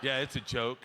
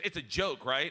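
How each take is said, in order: First: Uneasy reassurance. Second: Checking question. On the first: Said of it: "And I was like". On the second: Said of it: "She goes". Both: Retold or imitated.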